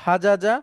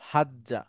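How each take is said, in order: First: Two j sounds are separated by a vowel. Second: The two j sounds merge into one doubled j. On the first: This is the original underlying form. "মূলত ছিল হাজাজা" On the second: This is the contracted form actually used. "হলো হাজ্জা"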